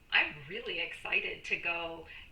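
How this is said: The voice sounds eager and enthusiastic. The speaker truly wants to go. "you can see I really am excited, and the tonality of my voice"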